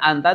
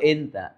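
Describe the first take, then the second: First: The first vowel is an open a sound. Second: The first vowel is an e sound. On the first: This is the standard form. "Jadi biasa anta tuh enta" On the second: This is how native Arabs usually say it.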